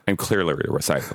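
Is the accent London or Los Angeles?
Los Angeles. It is said in a Los Angeles accent.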